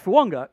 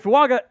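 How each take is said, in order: First: The name is said with an 'ng' sound. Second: The name is said without an 'ng' sound. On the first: This is how the player himself says it. "the the invisible N G in there" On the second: This is how the pronunciation guides give it. "all of the pronunciation guides say Fuaga"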